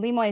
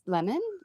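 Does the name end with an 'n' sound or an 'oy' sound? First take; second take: oy sound; n sound. First: The name ends with an 'oy' sound. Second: The name ends with an 'n' sound. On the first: The speaker calls it right. "Lemoy is how you say it" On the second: The speaker calls it wrong. "That's lemon"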